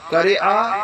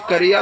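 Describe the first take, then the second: First: قریعہ with a catch before the final a; broken ending. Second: قریہ with a gliding -iya ending; joined ending. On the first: Arabic teacher repeating both forms, split final vowel in قریعہ. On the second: Arabic teacher repeating both forms, gliding -iya in قریہ. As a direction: run the end of قریہ together as -iya. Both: Shown as a demonstration. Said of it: "دونوں طرح آپ بول سکتے ہیں".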